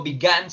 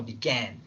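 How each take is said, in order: First: "began" wrongly said with a plain Spanish A: bi-GAHN; began with open A. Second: "began" with a smiled A, between A and E. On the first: Teacher shows what not to say, "began" as bi-GAHN. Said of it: "No digo began". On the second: Teacher corrects the vowel, "began" with a smiled æ. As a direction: spread the lips on the "æ" of "began". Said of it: "pero sonriendo". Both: Shown as a demonstration.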